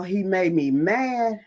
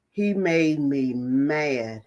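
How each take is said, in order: First: Said in the usual way. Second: Mad drawn out slow and low; slow emphatic repeat. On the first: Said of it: "When I tell y'all". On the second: Real, not acted. Repeating to the group that he made me mad, slow and heavy. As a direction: lean on every word of he made me mad. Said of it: "When I tell y'all he made me mad".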